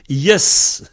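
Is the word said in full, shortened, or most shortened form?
most shortened. The word is cut to its shortest possible form. This is how the speaker's home dialect says it. "chez moi, on dit yes. Peut pas faire plus court"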